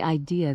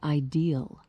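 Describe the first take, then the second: First: It is said without an L sound at the end. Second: It ends with an L sound, West Virginian style.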